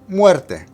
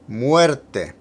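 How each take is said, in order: First: The word is said at a faster pace. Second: The word is said at a slower pace.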